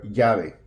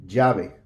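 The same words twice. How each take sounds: First: "llave" opening with a Y, YA-vay; y-sound LL. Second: "Llave" opening with a zh sound, ZHA-vay. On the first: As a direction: start "llave" like the y in "yard". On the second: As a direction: start "Llave" with the buzz of the s in "measure". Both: Shown as a demonstration. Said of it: "Llave or llave".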